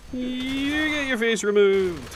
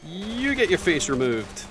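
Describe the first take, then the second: First: High, slow silly voice; squeaky cartoon menace. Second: Mock menace. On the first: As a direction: repeat it as a goofy cartoon baddie. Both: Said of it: "repeated in a sillier voice".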